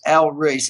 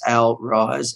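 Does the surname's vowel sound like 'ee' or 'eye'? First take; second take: ee; eye. First: The surname is said with an 'ee' vowel. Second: The surname is said with an 'eye' vowel.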